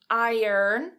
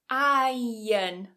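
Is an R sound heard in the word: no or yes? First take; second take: yes; no. First: It is said with an audible R sound. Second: It is said with no R sound. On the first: "with that er in there" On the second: "notice that I'm not pronouncing that R"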